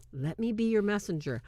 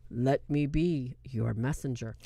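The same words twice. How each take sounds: First: Said in the usual way. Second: Very low, slow priest voice; deep, drawn-out imitation of a movie priest; mock solemn priest. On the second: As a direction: drop deep and intone it slowly. Mocking the movie priest's line.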